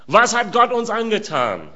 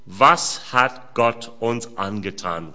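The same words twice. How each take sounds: First: Higher, stress on "Gott"; emphatic repeat. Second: Slow, low, weighted words; slow reading of a quote. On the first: Shown as a demonstration. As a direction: throw the question up, hitting "Gott". (höher, mit Betonung auf "Gott") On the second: Acted. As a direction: read it out slowly and gravely. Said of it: "riefen sie". (langsam und tief vorgelesen)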